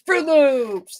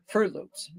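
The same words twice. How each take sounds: First: Fruit Loops much higher and louder, thrilled; imitating a delighted child's Fruit Loops; excited kid. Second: Said in the usual way. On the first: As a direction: squeal Fruit Loops like a kid naming a favorite cereal. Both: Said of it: "They get excited".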